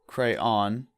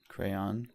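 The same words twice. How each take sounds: First: It is two syllables, ending rhyming with dawn. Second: It is one syllable sounding like crown. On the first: "With two syllables, where the second syllable rhymes with dawn" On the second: "sounds like crown"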